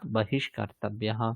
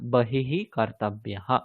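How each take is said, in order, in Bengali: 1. h হয়ে যায় sh, পরের শব্দের সঙ্গে যুক্ত হয়ে। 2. শব্দটি h ধ্বনি দিয়ে শেষ হয়, আলাদা থাকে।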